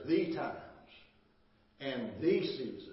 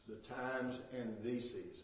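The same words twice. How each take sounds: First: "the times and the seasons" read louder, each phrase set apart by a pause; stressed reading. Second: Said in the usual way. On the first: Shown as a demonstration. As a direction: lean hard on "the times", then pause before "and the seasons". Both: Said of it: "bold letters".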